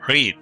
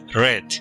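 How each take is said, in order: First: The vowel is long, rhyming with 'need'. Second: The vowel is short, rhyming with 'bed'. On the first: The verb is in the present or infinitive. "en presente se pronuncia read o en infinitivo" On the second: The verb is in the past tense. "en pasado se pronuncia read"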